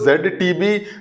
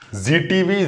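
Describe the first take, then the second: First: The letter Z is said as 'zed'. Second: The letter Z is said as 'zee'. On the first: "इसका pronunciation जेड है ... UK वाली" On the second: "हम ये क्यों बोलते हैं कि हम जी सिनेमा देख रहे हैं?"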